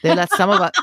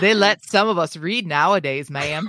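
First: Put-on Southern accent cracking into laughter. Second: Put-on Southern accent, raised in pitch. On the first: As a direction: start in Southern accent, then lose it laughing. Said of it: "in his best Southern voice". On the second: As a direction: finish the line in a playful Southern accent. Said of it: "he said in his best Southern voice". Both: A narrator's reading.

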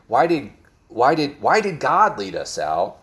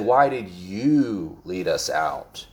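First: Said in the usual way. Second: Slow, leaning hard on the word "you"; stress on you. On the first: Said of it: "They didn't say". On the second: Shown as a demonstration. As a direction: point the blame with "you", slowly. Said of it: "They said".

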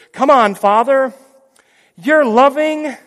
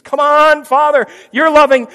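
First: High, loud, slow begging; pleading son. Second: High, loud begging; pleading son. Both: Pretend. Jesus pleads with the Father, high and begging.

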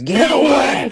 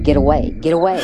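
First: Put-on high shout of a possessed boy; screaming. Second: Mild retold scream, raised pitch. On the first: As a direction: shriek it to drive someone off. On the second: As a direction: imitate a possessed boy's repeated scream. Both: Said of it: "he starts screaming".

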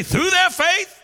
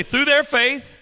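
First: High, rousing shout; emphatic call, pitch leaping up; like you mean it. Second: Said in the usual way. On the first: Shown as a demonstration. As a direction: fire up the congregation to shout it back. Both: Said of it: "Say it like you, you mean it".

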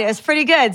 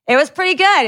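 First: Said in the usual way. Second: Gleeful. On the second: Real, not acted.

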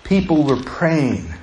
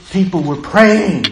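First: Quiet and slow. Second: People were praying, with more push on praying; stronger restatement. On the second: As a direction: say it again so it lands, stressing praying. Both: Shown as a demonstration. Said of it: "Do you hear me?".

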